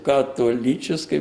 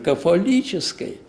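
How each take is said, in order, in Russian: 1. Слово произносится со звуком т. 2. Слово произносится со звуком ф. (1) "Мы произносим католической по западной манере" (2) "это же кафолической"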